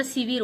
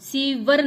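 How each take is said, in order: First: शिविर ending in -vir; two i sounds in शिविर; correct form. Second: शिवर ending in -var; no i after व in शिवर; wrong form. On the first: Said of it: "शिविर होता है". (सही उच्चारण, शिविर) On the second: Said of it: "शिवर नहीं होता". (गलत उच्चारण, शिवर) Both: Shown as a demonstration.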